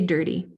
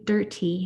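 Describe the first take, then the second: First: The middle T sounds like a quick D. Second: The middle T is a crisp, released T. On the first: This is the usual everyday way here. "We say dirty" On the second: This is how it sounds in London. "We don't say dirty unless you're in London"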